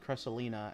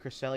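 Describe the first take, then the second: First: The name ends in '-lina' with an n sound. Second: The name ends in '-lia' with no n sound. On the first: The speaker calls it wrong. "he said Cresselina" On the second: The speaker calls it right. "instead of Cresselia"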